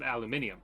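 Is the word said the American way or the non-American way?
non-American. It is said the non-American way. "the way that I do"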